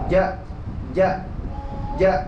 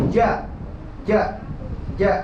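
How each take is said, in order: The two takes are said the same way.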